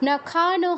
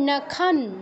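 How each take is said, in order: First: A full vowel is sounded after the final n. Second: The word ends on a bare n without vowel. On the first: The speaker calls it wrong. "নখানও হবে না" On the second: The speaker calls it right. "হসন্ত থাকা মানে ওই অক্ষরের সাথে যেই স্বরবর্ণটা আছে সেটার উচ্চারণ হবে না"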